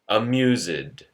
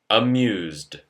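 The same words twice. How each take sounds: First: The -ed ending is an extra syllable. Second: The -ed ending adds no extra syllable. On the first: The speaker calls it wrong. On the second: The speaker calls it right.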